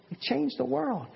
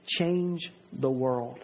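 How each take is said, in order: First: World lifted much higher, then falling; soaring emphatic restatement; higher exclamation. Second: Each word dragged out slow and weighty; solemn slow stress on change; slow emphasis. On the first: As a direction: lift it up high on changed. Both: Shown as a demonstration. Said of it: "Little things like that".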